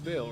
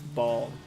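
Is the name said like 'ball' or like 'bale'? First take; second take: bale; ball. First: The name rhymes with 'pale'. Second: The name rhymes with 'tall'. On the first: This is how the game says it. "it's Bale, right? In my head, it's always been Bale" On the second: This is how most people say it. "people always say it's Ball"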